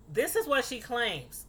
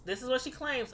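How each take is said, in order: First: Is lifted and leaned on; stress on is. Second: What lifted and leaned on; stress on what. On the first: Distancing herself from the claim, stressing is. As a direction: make clear this is only her claim, pushing is. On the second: Distancing herself from the claim, stressing what. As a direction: push what, casting doubt on it. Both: Shown as a demonstration.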